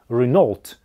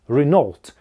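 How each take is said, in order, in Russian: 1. Ударение на втором слоге. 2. Ударение на втором слоге.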